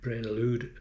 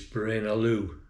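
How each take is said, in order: First: The name ends with a sounded D. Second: The name ends without any D sound. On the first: The speaker calls it wrong. "I think I've been trying to say Braine Allude" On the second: The speaker calls it right. "but it's Braine Alleau. You don't pronounce the D"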